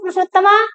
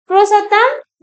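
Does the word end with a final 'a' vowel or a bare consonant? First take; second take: final vowel; bare consonant. First: The word ends with a final 'a' vowel. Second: The word ends on a bare final consonant. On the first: The speaker calls it right. "थोड़ा सा संस्कृत में बोले ऐसे" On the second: The speaker calls it wrong. "मैंने हिंदी बोल दी"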